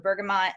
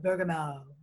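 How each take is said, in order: First: The final t is clearly pronounced. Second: The final t is left silent. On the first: "I say the tea. I'm a teer" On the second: "as some people say"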